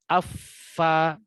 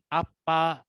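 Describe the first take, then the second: First: The consonant is a breathy f sound. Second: The consonant is a closed-lips p sound. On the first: The speaker calls it right. "seharusnya afa" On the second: The speaker calls it wrong. "bukan apa atau pa, bukan"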